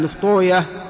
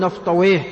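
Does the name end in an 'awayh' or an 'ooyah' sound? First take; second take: ooyah; awayh. First: The name ends with an 'ooyah' sound. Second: The name ends with an 'awayh' sound. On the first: This is how hadith scholars say the name. "فأهل الحديث ينطقون هذه الأسماء" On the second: This is the form hadith scholars avoid saying. "ولا يقولون نفطويه"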